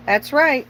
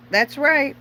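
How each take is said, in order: Both takes have the same delivery.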